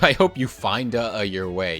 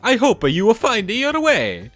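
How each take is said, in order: First: It is said in his normal voice. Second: It is said in a Mario impression.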